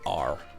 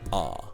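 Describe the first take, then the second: First: The final R sound is strongly pronounced. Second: The final R sound is left off. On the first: This is how American speakers say it. "rather than R" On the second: This is how British speakers say it. "We just leave it R"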